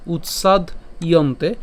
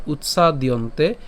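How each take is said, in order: First: Slow "উৎসাদ ইয়ন্তে" in two separate parts; split pronunciation. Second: "উৎসাদিয়ন্তে" run together, utsa-diyonte; joined pronunciation. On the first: Teacher breaks up the verse for learners, slow split pronunciation. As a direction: stop on d in "উৎসাদ", then begin "ইয়ন্তে". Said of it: "শ্লোকটিকে আরেকটু ভেঙে দিয়েছি". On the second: Teacher offers the all-together version, joined pronunciation. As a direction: carry d into the next syllable in "উৎসাদিয়ন্তে". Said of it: "অথবা একসাথে বললে". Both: Shown as a demonstration.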